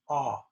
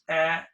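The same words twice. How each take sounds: First: The vowel is made with the tongue further back. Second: The vowel is made with the tongue further forward. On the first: "English ah" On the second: "Japanese ah, the tongue is forward more"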